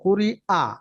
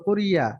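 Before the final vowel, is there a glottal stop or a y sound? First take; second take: glottal stop; y sound. First: A clear glottal stop separates the last two vowels. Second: A y glide joins the last two vowels. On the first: The hamza is pronounced distinctly. The speaker calls it right. "হামজাটা স্পষ্ট করব কুরি আ" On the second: It turns into a different letter's sound. The speaker calls it wrong. "যদি শোনা যায় ইয়ার মতো কুরিয়া, এরকম হলে তো ইয়ার উচ্চারণ হয়ে যাবে"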